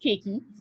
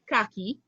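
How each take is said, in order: First: The word is said the Barbados way, as keki. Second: The word is said the common way, as khaki. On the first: "In Barbados, it's pronounced keki" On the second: "For most of us, we pronounce it khaki"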